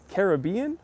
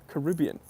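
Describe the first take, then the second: First: Caribbean as ka-ruh-BEE-un, rising at the end; stress on third syllable. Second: Caribbean as kuh-RIB-ee-un, falling at the end; stress on second syllable. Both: Shown as a demonstration. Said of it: "It depends how you're".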